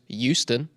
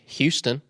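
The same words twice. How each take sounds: First: The word begins with a vowel sound. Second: The word begins with an H sound.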